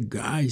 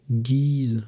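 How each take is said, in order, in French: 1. Le nom se prononce à l'anglaise. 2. Le nom se prononce à la française. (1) "si on prononce en anglais" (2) "si on prononce en français"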